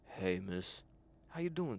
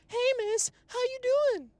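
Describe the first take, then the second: First: The voice is pitched low. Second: The voice is pitched high. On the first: "this time I'm gonna lower it down" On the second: "this time I was over here high pitched"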